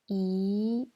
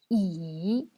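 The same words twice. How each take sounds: First: The pitch rises from middle to high. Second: The pitch dips low and then rises. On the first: "C'est le deuxième ton" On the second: "C'est le troisième ton"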